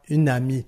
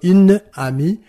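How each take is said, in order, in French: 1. La première voyelle tombe et la deuxième reste. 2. Les deux voyelles sont conservées, aucune voyelle ne tombe. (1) "la première qui va sauter" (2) "Au lieu de"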